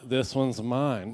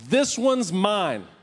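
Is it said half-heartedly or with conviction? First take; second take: half-heartedly; with conviction. First: It is said weakly, without conviction. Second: It is said strongly, with conviction.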